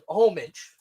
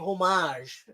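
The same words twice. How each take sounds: First: The word is said plainly, as it looks. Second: The word is said in a posh way. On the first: "It looks like homage" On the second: "we're gonna say homage uh, because we want to sound like douchebags"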